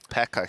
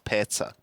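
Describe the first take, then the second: First: The middle consonant is a k sound. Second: The middle consonant is a ts sound. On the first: The speaker calls it wrong. "He's not Pekka" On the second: The speaker calls it right. "he's Petsa"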